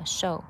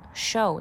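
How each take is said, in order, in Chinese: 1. 这个元音更扁平，圆唇程度更低。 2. 这个元音是圆唇的，而且是卷起来的。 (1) "它是比较偏平一点哈show" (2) "它不是这种卷的show"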